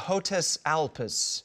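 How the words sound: The name is said with a heavy American accent.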